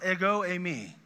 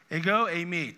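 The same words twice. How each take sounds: First: Ego eimi said in Greek, eh-go ay-mee; Greek words ego eimi. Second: Ego eimi said again with weight on Ego; Greek words ego eimi, repeated. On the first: Teaching a congregation: ego eimi said as Greek words. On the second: Teaching a congregation: Ego eimi repeated with emphasis. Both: Shown as a demonstration. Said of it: "it's these two words".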